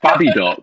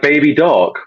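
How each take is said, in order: First: Baby is said short, in a northern English accent. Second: Baby is said in a standard, non-northern accent.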